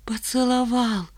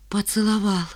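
First: «поцеловал» медленно, слог за слогом; растяни «поцеловал» на отдельные слоги; по складам. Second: Почти шёпотом, без голоса; выдохни слово тихо, как тайну; потрясённое признание. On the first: A narrator's reading. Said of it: "произнесла Ленка по складам". (медленно, по складам) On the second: Acted. Ленка сообщает о поцелуе. (тихо, почти шёпотом)

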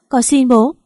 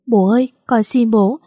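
First: Higher, louder begging cry; desperate plea. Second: A daughter pleading for forgiveness; tearful begging. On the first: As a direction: plead with rising panic. Father collapses coughing. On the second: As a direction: beg him from your knees. Kneeling, begging her father. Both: A narrator's reading.

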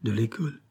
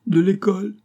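First: Softer, subdued tearful echo; small acted whimper of an answer; tearful confirmation. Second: High, louder incredulous question; acted shock, pitched up. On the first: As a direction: admit it quietly through mild tears. Nephew confirms amid sobs. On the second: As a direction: echo it in scandalised disbelief. Aunt's shocked question to nephew. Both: A narrator's reading.

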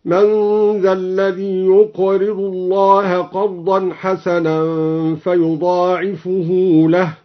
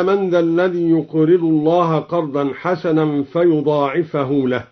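First: فيضاعفه ending in -hu, "fayuda'ifuhu", slow; slow recitation, فيضاعفه with raised ending; فيضاعفه with final u. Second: Said in the usual way. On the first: Shown as a demonstration. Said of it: "فهو يضاعفه هكذا". (فيضاعفُه بالرفع بتأنٍّ) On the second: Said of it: "قرأ فيضاعفه بالرفع".

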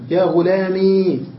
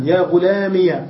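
First: "غلامي" with a long final ee; silent ya. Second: "غلامي" said "ghulamiya"; ya with fatha. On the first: Teacher reading the still-ya form, long ee ending. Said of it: "وإسكانا". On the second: Teacher reading the opened-ya form, -iya ending. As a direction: finish "غلامي" on a clear -iya. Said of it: "وبالياء فتحا". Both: Shown as a demonstration.

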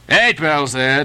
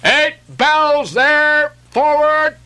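First: Lightly voiced sailor, only a little raised; a mild echo of the mate's order; sailor repeating the call. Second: Much higher, louder, slow ship's call across the deck; mate's call. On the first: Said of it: "Second Nantucket sailor". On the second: Acted. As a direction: bellow the order forward from the quarterdeck. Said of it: "Mate's voice from the quarterdeck".

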